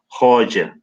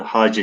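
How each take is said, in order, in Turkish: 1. Ünlüler o, sonra e. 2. Ünlüler a, sonra e. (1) "Farsçada o a, hoce, bilmiyorum doğru telaffuz ettim mi?" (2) "daha çok Orta Asya'da e, Hace şeklinde telaffuz ediliyor"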